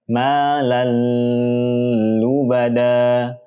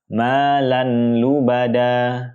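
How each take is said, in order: First: The merged sound carries a held nasal hum. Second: The n sound is pronounced clearly before l. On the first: "Contoh yang kurang tepat adalah dengan mendengungkannya" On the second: "Atau nunnya dibaca dengan jelas"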